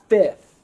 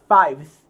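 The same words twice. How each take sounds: First: It is said with an f sound, fifth. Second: It is said like five with th added. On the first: The speaker calls it right. "it's fifth" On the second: The speaker calls it wrong. "but it's not fifth"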